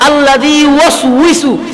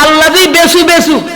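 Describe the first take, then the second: First: The final word is said as yuwaswisu. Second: The final word is said as besu besu. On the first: The speaker calls it right. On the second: The speaker calls it wrong.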